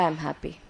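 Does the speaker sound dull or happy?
dull. It is said flatly, without any joy. The speaker does not really feel happy. The speaker calls it wrong. "Do I look happy?"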